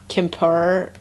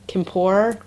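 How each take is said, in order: Both takes have the same delivery.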